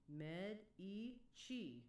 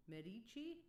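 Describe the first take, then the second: First: Medici very slowly, with a "chee" ending; syllable by syllable. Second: Medici as one word with "chee", rising higher; checking pronunciation. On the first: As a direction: stretch out med-ee-chee. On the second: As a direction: ask it as med-ee-chee. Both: Shown as a demonstration. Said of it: "Is that correct".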